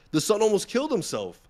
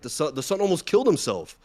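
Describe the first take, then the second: First: "The son almost killed himself" said much higher, "killed" stressed and falling; emphatic repeat. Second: Said in the usual way. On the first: Real, not acted.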